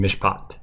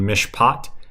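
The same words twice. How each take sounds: First: The second vowel is slightly shorter and quicker. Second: The second vowel is held slightly longer. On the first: It leads into the next word. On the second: It is the standard form.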